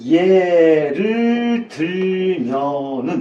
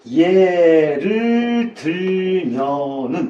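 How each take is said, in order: First: Each syllable is articulated clearly and carefully. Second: Each syllable is articulated clearly and carefully.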